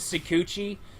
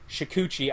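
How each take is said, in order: First: The word begins with a plain s sound. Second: The word begins with an sh sound. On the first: The speaker calls it wrong. "I don't say the first H" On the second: The speaker calls it right. "I should say it right"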